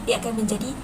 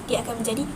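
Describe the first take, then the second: No difference in how they are said.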